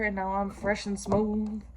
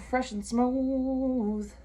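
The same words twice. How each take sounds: First: Said in the usual way. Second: Stretched, silky repeat; playful slow silky voice; slow drawn-out put-on voice. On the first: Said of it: "repeats it in put-on voice". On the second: Shown as a demonstration. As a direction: drag each word out playfully. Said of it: "slow put-on repeat".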